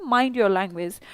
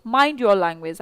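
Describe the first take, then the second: First: "mind your language" said slowly and carefully, word by word; slow demo phrase. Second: Said in the usual way. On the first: Shown as a demonstration. Teacher showing the class how to say "mind your language", slow and deliberate. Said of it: "आप ऐसे बोलते हैं". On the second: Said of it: "मतलब जुबान संभाल कर बोलो".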